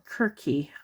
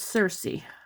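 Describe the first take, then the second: First: The name starts with a k sound. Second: The name starts with an s sound.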